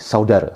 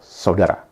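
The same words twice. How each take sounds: First: The final vowel is pronounced like 'e'. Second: The final vowel is a full 'a' sound. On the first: "seperti yang diucapkan oleh teman-teman dari Melayu" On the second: "ya tetap. Itu adalah saudara"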